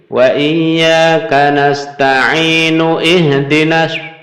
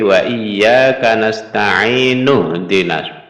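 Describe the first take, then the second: First: The glottal 'i' sound before 'dina' is pronounced. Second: The glottal 'i' sound before 'dina' is dropped. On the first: The speaker calls it wrong. "Kelirunya begini. ... wasol wasol tapi hamzahnya ini dibaca" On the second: The speaker calls it right. "Seharusnya ini kan tidak dibaca"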